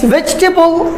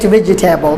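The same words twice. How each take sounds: First: The word is said the standard way. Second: The word is said following its letters. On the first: The speaker calls it right. "So it's vegetable" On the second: The speaker calls it wrong. "we pronounced it vegetable"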